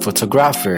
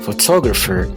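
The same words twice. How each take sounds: First: The stress is not on the second syllable. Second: The stress is on the second syllable. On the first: The speaker calls it wrong. "I just said like photographer" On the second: The speaker calls it right. "So the second syllable it should be stressed"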